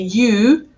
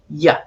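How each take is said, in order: First: The word has a full vowel. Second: The word has a weak schwa vowel. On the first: The speaker calls it wrong. "I don't say you" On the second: The speaker calls it right. "I say ya"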